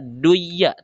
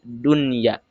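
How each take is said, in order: First: The n sound is merged away. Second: The n sound is pronounced clearly. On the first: The speaker calls it wrong. "tidak boleh dibaca" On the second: The speaker calls it right. "harus dibaca idhar"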